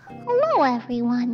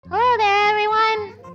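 First: It is said in a mob boss accent. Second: It is said in a plain character voice.

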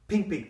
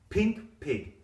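First: It is said at a very fast pace. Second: It is said at a moderately fast pace.

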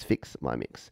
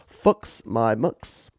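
First: The vowels are said without a New Zealand accent. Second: The vowels are said in a New Zealand accent.

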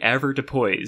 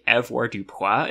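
First: The word is pronounced in an English way. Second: The word is pronounced in a French way. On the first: The speaker calls it right. "it's apparently usually avoirdupois" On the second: The speaker calls it wrong. "this is like the most French-looking word, so obviously it's going to be pronounced like that"

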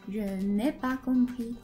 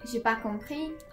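First: The negative ne sound is said in full. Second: The negative ne sound is left out. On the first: This is the full written form. "When you're writing" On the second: This is the everyday spoken form. "So when you're speaking"

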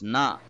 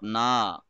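First: The vowel after the n is kept short. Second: The vowel after the n is drawn out long. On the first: The speaker calls it right. "it's na" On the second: The speaker calls it wrong. "why are you stretching the noon here? ... it's not na"

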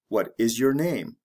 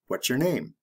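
First: The words are said slowly and separately. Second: The words are said quickly and run together. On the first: "The slow way" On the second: "The fast way"

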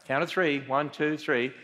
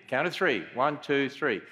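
Both takes have the same delivery.

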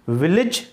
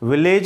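First: The last syllable has a short 'i' vowel. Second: The last syllable has an 'e' vowel. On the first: The speaker calls it right. "इनमें छोटी ई की मात्रा होती है" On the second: The speaker calls it wrong. "विलेज नहीं"

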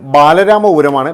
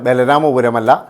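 First: The first vowel of the name is long. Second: The first vowel of the name is short. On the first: The speaker calls it right. "ഏതായാലും ബാലരാമപുരമാണ്" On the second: The speaker calls it wrong.

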